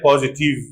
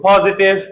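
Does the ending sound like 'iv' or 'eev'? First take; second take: eev; iv. First: The ending has a long 'eev' sound. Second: The ending has a short 'iv' sound. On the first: The speaker calls it wrong. "people say positive" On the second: The speaker calls it right. "it is Ev"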